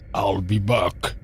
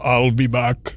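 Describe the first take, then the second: First: The voice is pitched low and deep. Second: The voice is pitched a bit higher. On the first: "So I immediately went" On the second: "I actually go up a bit instead of down a bit"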